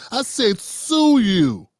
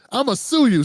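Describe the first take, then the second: First: "sue" drawn out slowly and leaned on hard; slow stress on sue. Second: Said in the usual way. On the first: Retold or imitated. Woman correcting the misheard threat, slowly stressing "sue". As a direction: spell it out, slowly pressing on "sue". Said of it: "No, no, I didn't say shoot you". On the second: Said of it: "she's like".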